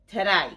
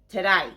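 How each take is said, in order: First: It is said so it sounds like 'g'day'. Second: It is said so it sounds like 'g'day'.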